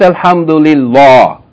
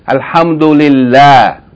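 First: The L is heavy, said with a full mouth. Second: The L is light, said with a thin mouth. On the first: The speaker calls it wrong. "Not Alhamdulillah" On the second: The speaker calls it right.

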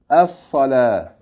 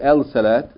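First: The article's l blends into a doubled s. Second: The article is said as a separate el. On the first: The speaker calls it right. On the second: The speaker calls it wrong.

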